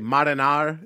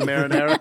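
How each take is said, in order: First: It is said with an exaggerated Italian-American accent. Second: It is said with a plain American accent. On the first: It gives a corny old-school mobster movie feel. "that fucking corny Goodfellas experience" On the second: It is the ordinary everyday way of saying it. "instead of marinara"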